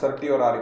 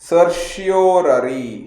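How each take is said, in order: First: The middle consonant is a t sound. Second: The middle consonant is a sh sound. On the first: The speaker calls it wrong. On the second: The speaker calls it right.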